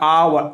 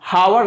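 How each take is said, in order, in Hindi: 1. इस शब्द की शुरुआत सीधे स्वर से होती है। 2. इस शब्द की शुरुआत 'h' ध्वनि से होती है। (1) "आवर पढ़ना है" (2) "हावर नहीं पढ़ेंगे, रॉन्ग है बिल्कुल"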